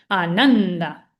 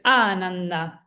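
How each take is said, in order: First: The stress is on the second syllable. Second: The stress is on the first syllable. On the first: The speaker calls it right. "vamos a decir Ananda, porque la pesada, la primera sílaba pesada después de la última es Nan" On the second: The speaker calls it wrong. "no vamos a decir Ananda"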